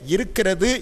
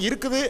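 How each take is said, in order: First: The full form is said with five syllables. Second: A shortened form is said with four syllables. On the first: This is how it is said in Tirunelveli. "திருநெல்வேலியிலே இருக்கிறது என்று சொல்லுகிறார்கள்" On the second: This is how it is said in Madurai. "மதுரைக்கு செல்கின்ற பொழுது இருக்குது அப்படின்னு சொல்கிறாங்க"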